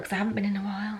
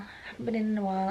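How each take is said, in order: First: Said in the usual way. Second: Soft unvoiced whisper aside. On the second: Shown as a demonstration. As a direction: whisper it like a secret. Whispered repeat of own line.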